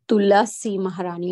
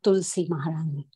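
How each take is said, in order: First: The first name is said with three syllables. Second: The first name is said with two syllables. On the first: The speaker calls it right. "we should always say Tulasi Maharani" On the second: The speaker calls it wrong. "not Tulsi Maharani"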